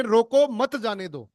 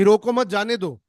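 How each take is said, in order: First: High "रोको", break, "मत जाने दो" falling away; pause after रोको. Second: "रोको मत जाने दो" in one quick run; no pause after रोको. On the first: Coach contrasting the stop-him version, pause after "रोको". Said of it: "इसी लाइन को अब ये बोल रहे हैं". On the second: Coach recalling the first let-him-go version, "रोको मत" joined. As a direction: run "मत" straight on from "रोको", raised pitch. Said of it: "पहले आपको ये बोल रहे थे". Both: Shown as a demonstration.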